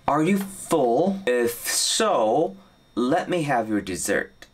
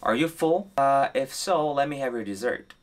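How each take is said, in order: First: It is said at a normal pace. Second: It is said at a faster pace.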